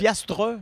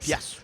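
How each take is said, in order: First: The final 'tre' sound is fully pronounced. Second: The final 'tre' sound is dropped. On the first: This is the full form of the word. "C'est piastre" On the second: This is how people actually say it locally. "on fout le camp avec le, le tre"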